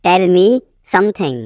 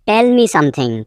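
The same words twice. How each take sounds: First: Teacher setting "something" apart; broken-up repeat. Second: Said in the usual way. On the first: Shown as a demonstration. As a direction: pause before "something".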